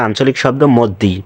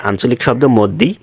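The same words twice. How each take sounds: The two takes are said the same way.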